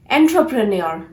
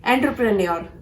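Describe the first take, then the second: First: "entrepreneur" as EN-tro-pre-nee-or; "entrepreneur" with R straight after T; correct entrepreneur. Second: "Entrepreneur" as EN-tuh-pruh-nee-or; "Entrepreneur" starting like "enter"; mispronounced entrepreneur. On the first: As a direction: sound a clear TRO in "entrepreneur". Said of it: "pronounce this word as". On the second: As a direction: drop the R after T in "Entrepreneur". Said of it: "This is a wrong pronunciation". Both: Shown as a demonstration.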